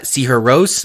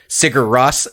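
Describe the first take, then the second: First: The name is pronounced the Icelandic way. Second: The name is read like English spelling. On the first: "is how you pronounce it" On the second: "might be how you'd know them"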